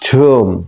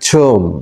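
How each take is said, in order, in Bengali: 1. স্বরধ্বনিটি 'oo' এর মতো শোনায়। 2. স্বরধ্বনিটি 'oo' এর মতো শোনায়।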